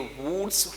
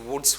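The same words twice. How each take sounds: First: The vowel is a long 'oo' sound. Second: The vowel is a short 'u' sound. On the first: The speaker calls it wrong. "क्या ये वुड्स हुआ?" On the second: The speaker calls it right. "जी नहीं, ये वुड्स हुआ।"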